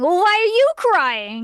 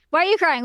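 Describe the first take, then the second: First: High, slow mock retort with "you" drawn out; louder play-acted comeback stressing "you"; mock yelling retort. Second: Higher-pitched mock crying quarrel; play-acted squabble, pitched up; mock yelling. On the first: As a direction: throw it back, leaning hard on "you". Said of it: "yelling at each other". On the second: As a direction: ask it like a mock tearful accusation. Girls yelling at each other.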